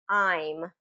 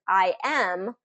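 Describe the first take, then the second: First: It is said as one contracted syllable. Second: It is said as two separate full words. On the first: "but it's just I'm" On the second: "the full form is"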